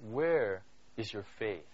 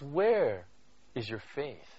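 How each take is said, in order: First: Slow, solemn Where is your faith; slow, weighted question. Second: "Where", a beat of silence, then a hushed "is your faith"; pause after Where. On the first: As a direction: lower and softer, drawn out slowly. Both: Shown as a demonstration. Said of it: "and listen very carefully".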